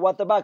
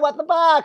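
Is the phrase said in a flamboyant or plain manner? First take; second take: plain; flamboyant. First: It is said in a plain, ordinary manner. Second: It is said in a campy, flamboyant manner. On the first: "They're not just like"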